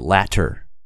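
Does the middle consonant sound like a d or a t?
t. The middle consonant sounds like a crisp t. "but they would say latter"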